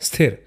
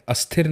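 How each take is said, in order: First: The word begins directly with the s cluster. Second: An extra vowel is added before the s. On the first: The speaker calls it right. "स्थिर ऐसे पढ़ते हैं" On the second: The speaker calls it wrong. "अस्थिर नहीं बोलेंगे"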